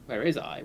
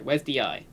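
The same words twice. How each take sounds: First: Echoing back with a rising question; incredulous echo. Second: "Where's" stressed with a falling tune; stress on wheres. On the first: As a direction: repeat the question in disbelief. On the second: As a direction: lean on "Where's", then let it fall. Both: Shown as a demonstration.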